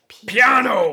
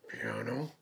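First: The word is said loudly. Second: The word is said softly.

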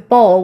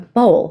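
First: It is said in an Australian accent. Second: It is said in an American accent. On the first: The speaker calls it wrong. "no one understands bowl in Australian" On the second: The speaker calls it right. "I have to say that with an American accent"

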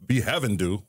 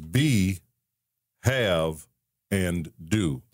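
First: It is said fast, run together as one word. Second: It is said slowly, each word separate.

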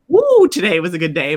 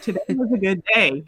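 First: It is said with excited enthusiasm. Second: It is said in a flat, plain way.

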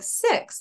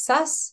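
First: The vowel is a clear, distinct i sound. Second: The vowel is centralized toward an uh sound. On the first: The speaker calls it right. "you're like, 6, I get it" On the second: The speaker calls it wrong. "that doesn't sound like 6"

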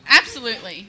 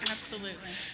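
First: It is said loudly and clearly. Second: It is mumbled quietly.

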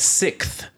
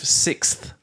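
First: The consonant cluster is simplified and reduced. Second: The consonant cluster is fully pronounced. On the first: The speaker calls it wrong. "British people, the inventors of the language, they say it sixth" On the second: The speaker calls it right. "instead of sixth"

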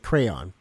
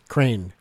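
First: The word is said with two syllables. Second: The word is said with one syllable. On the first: This is the speaker's own way of saying it. "I say crayon" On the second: This is someone else's way of saying it. "He says crane"

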